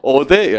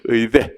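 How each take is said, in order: First: The first vowel is a plain 'eo' sound. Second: The first vowel is the gliding 'ui' sound. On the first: The speaker calls it wrong. "어대 이런 분이 계시는데" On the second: The speaker calls it right. "어대 아니고 의"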